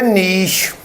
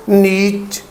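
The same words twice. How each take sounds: First: नीश ending in a soft sh; long ee then sh in नीश; correct niche. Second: नीच ending in a ch sound; long ee then hard ch in नीच; mispronounced niche. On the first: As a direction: say नीश as "neesh". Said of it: "N double E S H". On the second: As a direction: say नीच as "neech". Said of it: "नीचे वगैरह पढ़ लेते हैं". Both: Shown as a demonstration.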